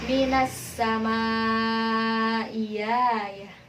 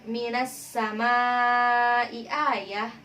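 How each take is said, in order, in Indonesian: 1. Hamzah kedua berubah menjadi bunyi y. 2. Hamzah kedua dibaca penuh. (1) "ibdalul hamzati tsaniyah menjadi" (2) "Contohnya pada lafaz"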